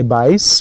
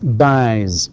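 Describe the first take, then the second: First: The final s is a hissing s sound. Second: The final s is a buzzing z sound. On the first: The speaker calls it wrong. "we don't say buys" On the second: The speaker calls it right. "vowels are all voiced so that's buys"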